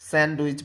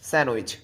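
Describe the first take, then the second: First: The d sound is pronounced. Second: The d sound is left out. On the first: The speaker calls it wrong. "স্যান্ডউইচ বলেন না" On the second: The speaker calls it right. "আপনি বলেন স্যান্ডউইচ"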